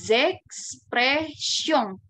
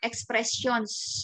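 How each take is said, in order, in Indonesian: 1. Akhirannya sengau dengan s tidak dibunyikan. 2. Huruf n dan s di akhir keduanya dibunyikan. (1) "Tapi kalau kita udah belajar bahasa Prancis tentu akan beda" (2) "ya dibaca aja nih N sama S-nya"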